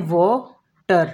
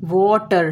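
First: वाटर said slowly as वा-टर, a beat between the syllables; split into syllables. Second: Said in the usual way. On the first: Shown as a demonstration. Teacher shows students वाटर split syllable by syllable. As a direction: break वाटर into two clear beats, वा then टर. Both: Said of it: "हम इसको तोड़ रहे हैं".

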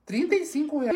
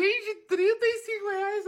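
First: Said in the usual way. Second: Higher, slow disbelief at the price; shocked at the price. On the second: Real, not acted.

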